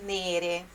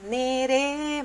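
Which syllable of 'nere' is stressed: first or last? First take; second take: first; last. First: The stress is on the first syllable. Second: The stress is on the last syllable. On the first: This is how it is said in ordinary speech. "mas é nere" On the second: This is how the song delivers it. "ele dá entonação na última sílaba"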